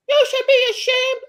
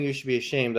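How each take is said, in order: First: High, loud shrill scold; mock scolding lady. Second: Said in the usual way. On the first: Mimicking the Starbucks lady scolding him, high and loud. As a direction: squeal it like a scandalized lady. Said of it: "and she's like". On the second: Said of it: "While she's saying".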